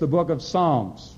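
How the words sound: It is said in a flat, nasal American accent.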